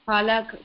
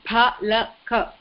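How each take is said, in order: First: The word ends on the consonant k. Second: The word ends on a final vowel after k. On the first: It is the Hindi form of the word. The speaker calls it wrong. "If you say it palak, it means it's Hindi" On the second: It is the correct form of the word. The speaker calls it right. "It is palaka"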